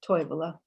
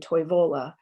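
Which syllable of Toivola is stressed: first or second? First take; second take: first; second. First: The stress is on the first syllable. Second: The stress is on the second syllable. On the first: "Finnish would say" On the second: "you can hear the stress shift on the second syllable"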